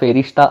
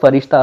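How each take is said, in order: First: The first vowel sounds like 'e'. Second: The first vowel sounds like 'a'. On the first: This is how some people say the name. "फेरिश्ता असंही काही लोक म्हणतात" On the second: This follows the translator's version of the name. "मी कुंट्यांनुसारच त्याचा उच्चार फरिश्ता असाच करतो"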